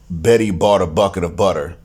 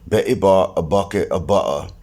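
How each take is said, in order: First: The t sounds are flapped like soft d's. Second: The t sounds are dropped as glottal stops.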